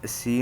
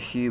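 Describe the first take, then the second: First: The syllable begins with a plain s sound. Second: The syllable begins with an sh sound. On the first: The speaker calls it wrong. "हम इसको सी नहीं बोलेंगे" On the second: The speaker calls it right. "बल्कि शी बो, बोलेंगे"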